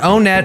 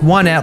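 First: The name does not begin like 'one'. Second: The name begins like the word 'one'. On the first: The speaker calls it wrong. "it's not Onet" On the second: The speaker calls it right. "it's Onet, like the number one"

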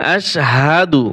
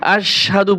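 First: The h sound is clearly pronounced. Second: The h sound is dropped, sounding like sadhu. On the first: The speaker calls it right. "সাধু নয়, আশহাদু। হা জবর হা" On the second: The speaker calls it wrong. "এইখানে অনেকেই ভুল করে পড়ে আশহাদু, পড়ে সাধু"

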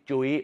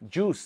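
First: The vowel is an 'ui' glide sound. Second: The vowel is a plain 'oo' sound. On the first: The speaker calls it wrong. "ไม่ใช่จุ้ยนะครับ" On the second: The speaker calls it right. "สระอู"

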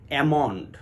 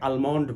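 First: It starts with a flat 'a' and no L. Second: It starts with an open 'ah' and a clear L. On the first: The speaker calls it right. "বিশুদ্ধ উচ্চারণ হবে অ্যামন্ড" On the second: The speaker calls it wrong. "অনেকে আলমন্ড বলে"

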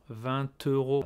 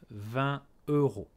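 First: The final t links into the next word. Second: The two words are kept apart, unlinked. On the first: The speaker calls it wrong. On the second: The speaker calls it right. "pas de liaison"

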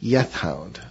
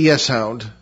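First: The first word ends with a th sound. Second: The first word ends with an s sound. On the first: The speaker calls it right. "but it's Yeth" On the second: The speaker calls it wrong. "And not the Yes Hound"

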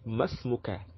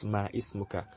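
First: The words merge, dropping the second word's first vowel. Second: The second word keeps its own first vowel. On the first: The speaker calls it right. "it's supposed to be masmuka" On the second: The speaker calls it wrong. "and not ma ismuka"

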